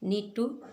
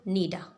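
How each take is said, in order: First: Both words are pronounced fully and separately. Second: The words are blended into one reduced form.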